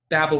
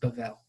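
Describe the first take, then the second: First: The middle consonant is a hard B sound. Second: The middle consonant is a V sound. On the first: "the way that you would transliterate it" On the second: "more of a V sound"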